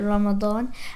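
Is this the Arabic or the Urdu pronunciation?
Arabic. It is said the original Arabic way. This is the original form of the word. "the real word is Arabic, and it's like"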